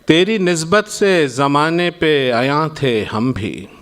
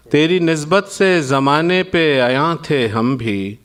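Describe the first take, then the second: No difference in how they are said.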